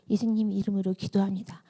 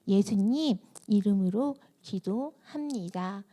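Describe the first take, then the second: First: It is said fast. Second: It is said very slowly.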